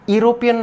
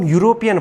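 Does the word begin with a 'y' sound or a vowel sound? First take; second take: vowel sound; y sound. First: The word begins with a plain vowel sound. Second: The word begins with a 'y' consonant sound. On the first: The speaker calls it wrong. "यूरोपियन नहीं पढ़ते" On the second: The speaker calls it right. "इसको हम यूरोपियन पढ़ते हैं"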